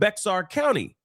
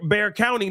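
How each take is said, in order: First: The first word does not sound like 'bear'. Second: The first word sounds like 'bear'. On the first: The speaker calls it wrong. "not Bexar County" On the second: The speaker calls it right. "So now I know Bear County as Bear"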